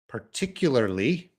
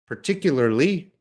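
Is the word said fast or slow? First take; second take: slow; fast. First: The word is said slowly and carefully. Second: The word is said faster and more naturally. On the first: "I said them slow" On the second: "a little faster"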